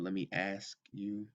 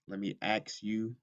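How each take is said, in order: First: The s sound comes before the k. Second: The s and k sounds are swapped. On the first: "instead of" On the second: "when someone says"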